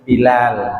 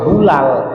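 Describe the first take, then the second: First: The first syllable has an i vowel. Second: The first syllable has a u vowel. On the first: The speaker calls it right. "tapi Bilal" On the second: The speaker calls it wrong. "jangan dibaca Balal atau Bulal"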